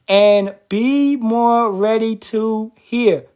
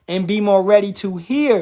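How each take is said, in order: First: It is read very slowly. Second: It is read at a normal pace.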